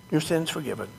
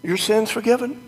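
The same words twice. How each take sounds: First: Said in the usual way. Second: Seraph. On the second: Pretend. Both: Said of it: "like the seraph".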